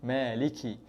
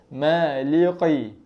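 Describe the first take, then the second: First: The k sound is soft with a little air. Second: The k sound is pressed and thick. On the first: "dia lembut sikit" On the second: "Kalau kita tekan maliqi"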